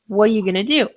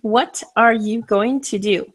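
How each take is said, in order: First: The T in 'what' is dropped casually. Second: Every sound is said fully and carefully. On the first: "That T with what I did not pronounce" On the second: "as it should be written"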